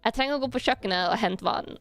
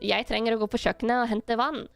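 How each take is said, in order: First: It is spoken in a North Norwegian dialect. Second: It is spoken in an East Norwegian dialect. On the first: "if I say the North Norwegian is" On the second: "if I say it in East Norwegian is"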